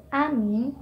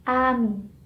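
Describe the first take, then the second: First: "amin" said quickly with short vowels. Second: "amin" with a stretched "aa", falling; long first vowel. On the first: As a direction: keep "amin" short, without stretching the "a". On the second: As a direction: draw out the start: "aamin". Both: Shown as a demonstration. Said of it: "is different from".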